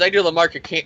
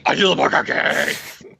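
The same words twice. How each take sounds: First: Said in the usual way. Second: Mock menacing voice. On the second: Villain boasting of the mark of Cain, hammed-up growl. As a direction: growl it like an over-the-top comic-book villain. Same boast redone in put-on voice.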